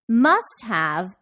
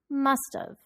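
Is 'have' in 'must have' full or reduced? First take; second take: full; reduced. First: Have is said in full, with h. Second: Have is contracted and linked to must.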